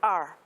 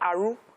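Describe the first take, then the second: First: The letter ends without any added vowel. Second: The letter ends with an added 'u' vowel. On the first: The speaker calls it right. "instead of R" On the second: The speaker calls it wrong. "They will say Aru"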